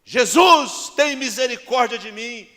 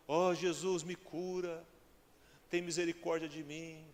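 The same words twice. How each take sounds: First: Full-force, high, drawn-out cry for mercy; desperate shout. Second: Restrained, drawn-back little plea for healing; meek plea. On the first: Blind man calling Jesus for mercy, desperate shout. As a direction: cry out to be heard over everyone. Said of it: "ele ouviu o grito de Bartimeu". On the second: Preacher acting the blind man asking wrongly, meek plea. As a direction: plead timidly, without crying out. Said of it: "Foi assim, não? Ou ele falou assim". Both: Acted.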